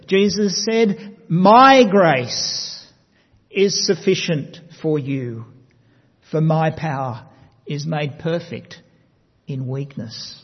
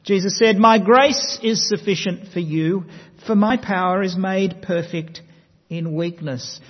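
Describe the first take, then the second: First: "My" punched loud, "My grace" slow and heavy; stress on my. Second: Said in the usual way. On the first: Shown as a demonstration. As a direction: lean hard on "My" in "My grace". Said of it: "putting an emphasis on a different word". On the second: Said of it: "Let me read that to you again".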